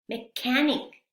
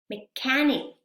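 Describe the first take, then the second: No difference in how they are said.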